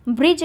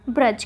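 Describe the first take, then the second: First: ब्रिज with short i; ब्रिज, i sound after br; wrong form shown. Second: ब्रज with short a; ब्रज, no i after br; correct form shown. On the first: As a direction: say ब्रिज as "brij". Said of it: "ब्रिज नहीं". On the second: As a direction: say ब्रज as "braj". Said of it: "र का प्रयोग होगा". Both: Shown as a demonstration.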